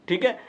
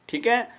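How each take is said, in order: The two takes are said the same way.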